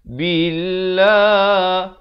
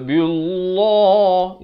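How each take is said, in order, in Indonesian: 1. Bunyi L-nya tipis dan ringan. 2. Bunyi L-nya tebal dan berat. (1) "lafz jalalah di sini dibacakan nipis" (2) "itu tebal, salah ya"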